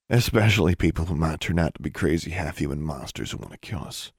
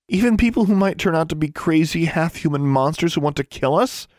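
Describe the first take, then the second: First: Low, quiet, emphatic answer; understated, lower-pitched insistence; firm retort. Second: High, rising, indignant disbelief; high-pitched, exasperated query; incredulous question. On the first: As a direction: answer back low and level, falling away at the end. Brother's firm answer echoing her. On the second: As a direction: ask it in outraged disbelief, pitch climbing at the end. Incredulous retort, echoed by brother. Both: Acted.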